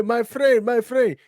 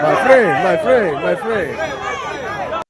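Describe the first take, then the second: First: Lightly voiced hustler, higher, falling on friend; a hint of a street hawker's lure; hustler's call. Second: Loud, high hustler call, falling on friend; hustler imitation. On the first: Warning viewers about scammers, mild hustler voice. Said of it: "Anytime you hear". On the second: Imitating a hustler calling out to tourists, sing-song. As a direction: lure them in like a street hawker.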